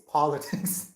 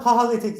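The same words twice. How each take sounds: First: Said in the usual way. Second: "politics" in a higher, louder, exaggerated youngster accent; mock the affected way of saying "politics", pitched up; affected pronunciation. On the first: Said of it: "it's not politics". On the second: Shown as a demonstration. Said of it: "it's politics".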